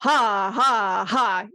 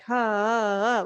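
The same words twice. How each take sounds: First: Hammered haws. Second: Light, surface-level ha pulses, quick; barely flick the ha, nothing behind it; shallow haws. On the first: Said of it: "You're hammering out those haws". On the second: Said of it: "It's not surface level where it's like". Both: Shown as a demonstration.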